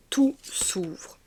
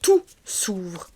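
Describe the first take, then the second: First: Redit en chuchotant, sans voix; souffle-le tout bas comme un secret; chuchoté. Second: Said in the usual way. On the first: Shown as a demonstration. Repeats the phrase, then whispers it. (chuchotement doux)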